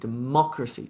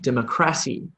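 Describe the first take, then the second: First: The stress is on the syllable mo. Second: The stress is on the syllable cr. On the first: The speaker calls it right. "the stress or the emphasis in that word is on the mo sound" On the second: The speaker calls it wrong. "if I put emphasis on the cr sound, the word sounds wrong"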